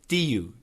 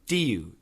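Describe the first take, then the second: First: The words are joined with a Y sound. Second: The same.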